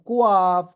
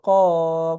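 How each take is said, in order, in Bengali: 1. q আর স্বরবর্ণের মাঝে একটা w-এর শব্দ ঢুকে যায়। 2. q-এর পরের স্বরবর্ণ সরাসরি আসে, w-এর কোনো শব্দ ছাড়াই। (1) "এখন যদি এরকম পড়েন কুয়াফ, তাহলে হবে না" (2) "ওয়া আসবে না স্বাভাবিকভাবে"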